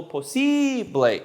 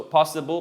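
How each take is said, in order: First: "posible" with a long, high "ee" on the I; Spanish clear E. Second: Said in the usual way. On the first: Shown as a demonstration. Teacher showing the Spanish I, "posible" with drawn-out "ee". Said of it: "a very clear E". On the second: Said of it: "The I is E".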